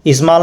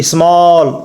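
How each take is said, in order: First: "स्मॉल" said as is-maal; short "स्मॉल" with an open aa instead of aw; mispronounced with आ. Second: "स्मॉल" said as is-mawl, drawn out; long ऑ vowel. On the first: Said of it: "स्मॉल नहीं पढ़ेंगे". ("स्मॉल" को इस्माल बोलें, ऑ की जगह आ) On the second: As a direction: stretch the rounded aw in "स्मॉल". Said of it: "इस तरह से". ("स्मॉल" को इस्मॉल, खींच के) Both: Shown as a demonstration.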